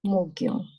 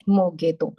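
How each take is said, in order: First: The phrase is merged into one word. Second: The phrase is said as two separate words. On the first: The speaker calls it right. "I mix it" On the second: The speaker calls it wrong. "So now I don't say ਮੋਗੇ ਤੋਂ"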